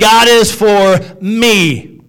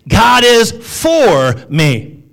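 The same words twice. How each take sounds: First: The stress falls on the word me. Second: The stress falls on the word for.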